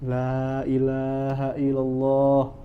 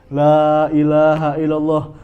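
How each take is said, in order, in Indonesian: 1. Diucapkan dengan lirih dan lembut. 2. Diucapkan dengan keras dan mendesak. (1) "Cukup dengan suara yang lirih" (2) "Ini nggak seperti itu ya"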